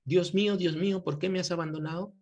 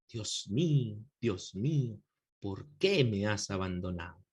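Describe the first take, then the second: First: Said in the usual way. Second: Poetic recitation. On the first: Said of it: "Algunas veces nosotros lo hemos dicho". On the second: Shown as a demonstration. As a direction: lower and hushed, poetic lament. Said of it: "a veces hasta de forma poética". (recitación poética, más grave y suave)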